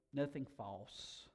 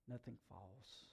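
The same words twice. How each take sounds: First: Nothing false spoken slowly and deliberately; slow, weighty reading of nothing false; slow emphasis. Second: Nothing false repeated much softer; quiet, reflective repeat of Nothing false; soft echo. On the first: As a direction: let each word of nothing false land slowly. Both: Shown as a demonstration.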